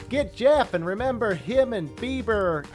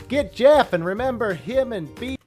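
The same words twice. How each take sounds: No difference in how they are said.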